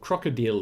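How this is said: The word is said with a German pronunciation.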